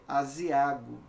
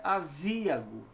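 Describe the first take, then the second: First: Aziago with stress on the second A; stress on penultimate syllable. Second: Azíago with a long stressed ZÍ; wrongly stressed middle syllable. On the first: Teacher correcting the mistake, aziago stressed on A. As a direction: say aziago as azi-Á-go. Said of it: "é o quê?". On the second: Teacher showing the mistake, azíago stressed on ZÍ. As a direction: say azíago as a-ZÍ-ago. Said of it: "Não é azíago". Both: Shown as a demonstration.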